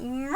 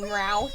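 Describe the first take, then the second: First: Drawn-out imitation meow; imitated cat meow. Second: Shorter, lower mimicked meow; a second, lower imitation of the cat; toned-down cat meow impression; imitated cat meow, emphatic. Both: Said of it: "Calcifer's meowing his head off".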